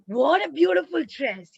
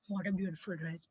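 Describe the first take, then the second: First: It is said with lively, excited exclamation. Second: It is said flatly, without excitement. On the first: The speaker calls it right. "Should be like" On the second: The speaker calls it wrong. "you should not say"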